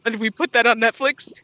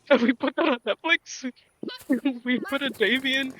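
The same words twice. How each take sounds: First: Loud rising question in disbelief; incredulous. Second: Incredulous question broken by laughter; laughing disbelief. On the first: Fan questioning the show's writers, loudly incredulous. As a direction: punch it out loudly, as if appalled. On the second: Fan mocking the Netflix reboot, laughing in disbelief. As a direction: crack up while asking, higher pitched. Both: Acted.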